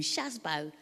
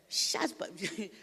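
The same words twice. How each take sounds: First: Said in the usual way. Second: Shazbo said on its own, higher and stretched, like a name being called; nickname called out. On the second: Shown as a demonstration. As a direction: call out Shazbo like the daughter does. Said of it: "when she calls me Shazbo".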